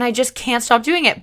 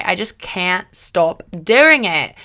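First: Said in the usual way. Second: "I just can't stop doing it" drawn out slowly and louder; slow emphatic repeat. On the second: Shown as a demonstration. Host repeating her confession for emphasis, slow and loud.

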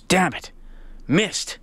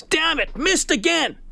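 First: Lightly frustrated muttered curse, kept small; mild frustration. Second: Mock scream. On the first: Retold or imitated. Golfer cursing his missed short putt, mildly frustrated. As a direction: retell a small flash of annoyance. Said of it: "showed a little frustration". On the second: Golfer missing yet another short putt, mock screaming. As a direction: imitate a fed-up golfer's scream without full volume.

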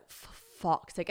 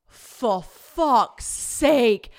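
First: Slow, drawn-out muted curse; resigned exasperation. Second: Loud, very slow exasperated curse; exasperated outburst. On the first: James hears she may walk it, resigned exasperation. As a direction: sigh the curse out slowly in defeat. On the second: James turns round and sees her, exasperated outburst. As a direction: drag out each word in loud disbelief. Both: Retold or imitated.

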